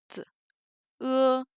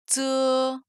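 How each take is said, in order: First: "t, e" split, short ts then held e; t as bare ts, then a level e; separated sounds. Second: "tse" blended into one held syllable; drawn-out level tse in one piece; whole syllable. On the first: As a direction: say the consonant ts alone, pause, then e. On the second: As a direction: join ts and e on an even pitch. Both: Shown as a demonstration. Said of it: "on va ajouter des voyelles".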